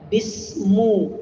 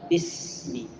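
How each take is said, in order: First: The word ends with an 'u' vowel. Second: The word ends with an 'i' vowel. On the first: The speaker calls it wrong. "kalau ada yang baca bismu, tolak" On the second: The speaker calls it right. "bacaan yang benar adalah bismi"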